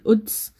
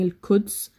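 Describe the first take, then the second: First: The word starts with a glottal stop. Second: The word starts with a plain k sound.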